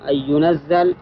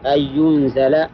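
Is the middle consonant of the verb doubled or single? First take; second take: single; doubled. First: The z sound in the verb is single. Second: The z sound in the verb is doubled. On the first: It is sent down all at once. "وأما الإنزال فهو إنزاله جملة واحدة" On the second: It is sent down gradually, bit by bit. "التنزيل هو إنزاله شيئا فشيئا"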